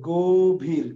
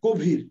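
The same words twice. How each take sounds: First: গভীর slowly, syllable by syllable; গভীর drawn out. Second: Said in the usual way. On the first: Shown as a demonstration. Repeats example word while typing it.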